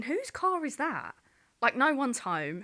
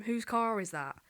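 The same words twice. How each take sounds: First: High, slow and baffled; puzzled alarm. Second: Said in the usual way. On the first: Retold or imitated. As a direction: think it aloud, alarmed. Inner thought, car on driveway.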